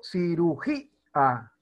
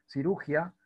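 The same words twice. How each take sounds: First: Cirugía slow, split as cirugí... a; hiatus, accented í. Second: Cirugía said ci-RU-gia; diphthong, no accent. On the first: Teacher showing students the hiatus, slowly split. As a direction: stress í in Cirugía, detach the a. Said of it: "Para que podamos disolver el diptongo". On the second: Teacher showing how it would sound untilded, ia merged. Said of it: "sonaría diferente". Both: Shown as a demonstration.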